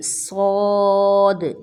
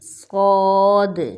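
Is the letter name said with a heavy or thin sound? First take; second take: heavy; heavy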